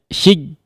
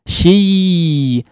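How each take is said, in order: First: The y sound is abruptly cut off. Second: The y sound keeps flowing without stopping. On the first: The speaker calls it wrong. "Mati aliran suaranya ini. Ini diantara kesalahan" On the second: The speaker calls it right. "artinya aliran suaranya masih ada"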